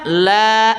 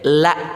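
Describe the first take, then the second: First: The vowel is long. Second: The vowel is short. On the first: It means not. "kalau kita baca panjang la" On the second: It means truly. "kalau dibaca pen pendek la gitu"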